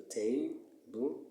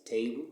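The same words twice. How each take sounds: First: "table" slowly split, ta - ble; slow "table" with a gap after "ta"; syllable by syllable. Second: Said in the usual way. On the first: Shown as a demonstration. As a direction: break "table" into two separate syllables. Teacher splits word into two syllables.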